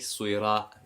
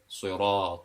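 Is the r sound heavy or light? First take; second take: light; heavy. First: The r is said light, with a thin mouth. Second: The r is said heavy, with a full mouth. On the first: The speaker calls it wrong. "It won't be" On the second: The speaker calls it right. "we pronounce it with a full mouth"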